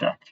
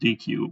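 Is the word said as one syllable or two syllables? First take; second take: one syllable; two syllables. First: It is said as one syllable, deck. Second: It is said as two letters, dee-queue. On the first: The speaker calls it right. "it's probably better to call it deck" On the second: The speaker calls it wrong. "I always think it's D Q, but uh, apparently I'm, I'm bad at that"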